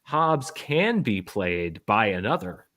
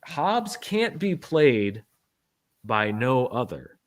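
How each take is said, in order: First: Slow, pointed "can" in "Hobbs can be played"; stress on can. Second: Slow, weighty "can't" in "Hobbs can't be played"; stress on can't. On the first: Host spelling out the threat with slow stress on "can". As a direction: drag out "can" as the real meaning. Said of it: "if you're taking that literally". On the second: Host reading the quote with slow ominous stress on "can't". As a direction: lean hard on "can't", slowly. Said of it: "veiled threat". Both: Shown as a demonstration.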